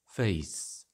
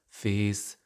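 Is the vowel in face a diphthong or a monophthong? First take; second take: diphthong; monophthong. First: The vowel glides toward a y sound. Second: The vowel stays steady without gliding. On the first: "the closing diphthong in face also ends with a glide y" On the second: "particularly in Scottish, all of these five vowel phonemes remain monophthongs"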